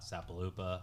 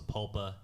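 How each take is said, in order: First: The name is said with four syllables. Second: The name is said with three syllables. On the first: The speaker calls it wrong. "not Sapaloopa" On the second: The speaker calls it right. "I know it's pronounced Sapulpa"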